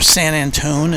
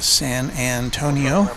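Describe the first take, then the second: First: The name is clipped, ending in 'Antone'. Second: The name is said with all its syllables. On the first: This is how some other people say it. "as some people say" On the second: This is the usual way of saying it. "normally I don't say it that way"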